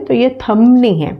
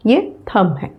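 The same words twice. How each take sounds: First: "थम" said as thumb, b sounded; wrong thumb with b. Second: "थम" with silent b, softly; correct thumb. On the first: Teacher showing the wrong thumb with b. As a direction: show the silent b pronounced wrongly. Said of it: "No need of uttering B". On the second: Teacher modelling thumb with a silent b. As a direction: say "थम", no b at the end. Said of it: "ये बी जो है silent है". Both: Shown as a demonstration.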